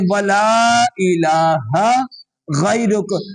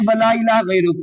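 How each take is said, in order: First: The 'h' sound in 'ilaha' is clearly said. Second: The 'h' sound in 'ilaha' is dropped. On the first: The speaker calls it right. "उसको मुकम्मल पढ़े" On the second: The speaker calls it wrong. "ये हा नहीं पढ़ते अक्सर नमाजी"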